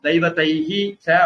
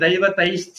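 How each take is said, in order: First: The words are split, with an audible h. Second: The two words run together into one. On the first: This is the separated form, not used when reciting. The speaker calls it wrong. "அப்படின்னு சொல்ல போறது இல்ல" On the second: This is the combined form used when reciting. The speaker calls it right. "அப்படிதான் சொல்ல போறோம்"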